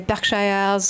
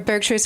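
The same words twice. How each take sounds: First: It is said with a French accent. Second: It is said in a plain, unaccented way. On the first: "he'll say Berkshires" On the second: "Or for Berkshires"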